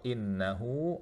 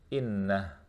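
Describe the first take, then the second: First: The word ends with a vowel held two counts. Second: The word ends abruptly on a stopped final consonant. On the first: The reader continues into the next word. "kalau wasal innahu ala raj'ihi, dua harokat" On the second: The reader pauses at this word. "Kalau misalnya kita berhenti di situ maka menjadi innah"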